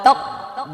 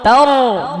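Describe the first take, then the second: First: The sound stops abruptly before the last syllable. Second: The sound is held continuously into the last syllable. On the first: The speaker calls it wrong. "এভাবে বললে আওয়াজটা বন্ধ করে দিতে সাকটা হয়ে যাবে" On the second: The speaker calls it right. "আওয়াজটা চালু রাখতে হবে"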